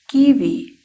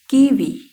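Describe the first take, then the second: The two takes are said the same way.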